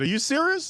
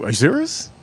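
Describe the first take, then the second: First: High, squeaky disbelieving question; surprised disbelief. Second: Said in the usual way. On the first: Retold or imitated. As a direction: ask it in high-pitched astonishment. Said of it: "I said". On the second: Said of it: "I go".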